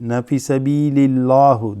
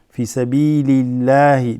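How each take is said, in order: First: The phrase ends with a 'u' vowel. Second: The phrase ends with an 'i' vowel. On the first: The speaker calls it wrong. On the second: The speaker calls it right. "You say it as light"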